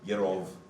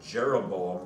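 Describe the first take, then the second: First: It begins with a Y sound and a V. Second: It begins with a J sound and a B. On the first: "there are no J's in Hebrew. ... It's the Y sound" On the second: "the way we kind of have learned to pronounce it in English"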